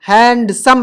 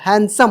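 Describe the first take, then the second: First: The d sound is clearly pronounced. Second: The d sound is silent. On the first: The speaker calls it wrong. "हैंडसम नहीं होता" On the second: The speaker calls it right. "हैंडसम होता है"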